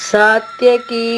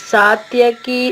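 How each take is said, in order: The two takes are said the same way.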